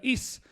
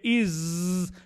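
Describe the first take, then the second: First: The final consonant is a hissing, unvoiced sound. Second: The final consonant is a buzzing, voiced sound. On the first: The speaker calls it wrong. "no vayan a pronunciar is" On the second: The speaker calls it right. "sino que is, como un zumbido"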